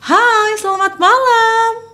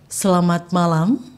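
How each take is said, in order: First: It is said on a high, lively pitch. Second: It is said on a low, flat pitch.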